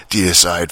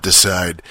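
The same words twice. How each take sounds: First: "deicide" with DEE-uh at the front; corrected pronunciation. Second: "decide" as two syllables, dih-SIDE; mistaken pronunciation. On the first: Correcting the streamer's misreading of the email address, "deicide" as DEE-uh-side. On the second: Quoting the streamer's misreading of the address, "decide" as dih-SIDE. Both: Shown as a demonstration. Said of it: "not decide".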